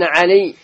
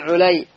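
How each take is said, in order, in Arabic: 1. الحركة الأولى هي صوت 'a' مفتوح. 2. الحركة الأولى هي صوت 'u' مدوّر. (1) "بالفتح" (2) "وبضمها"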